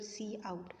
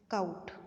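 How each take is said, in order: First: It is said as two parts, 'see out'. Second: It is said as one syllable, 'count'. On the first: The speaker calls it right. "this is your c out" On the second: The speaker calls it wrong. "don't pronounce it as count"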